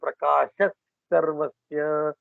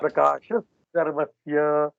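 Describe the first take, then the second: First: The first word ends with a breathy h sound. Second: The first word ends with an s sound. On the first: "Visarga changing into first. So for example" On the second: "Without saying the visarga in between"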